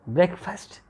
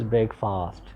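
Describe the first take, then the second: First: It is said with a native pronunciation. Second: It is said with a non-native pronunciation. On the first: The speaker calls it right. "This word is breakfast" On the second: The speaker calls it wrong. "You have no authority to pronounce this word as breakfast"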